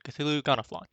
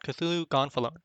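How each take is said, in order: First: The second word is said as gonaflon. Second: The second word is said as gonfalon. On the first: This is the speaker's preferred way to say the name. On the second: This is the name as it is written.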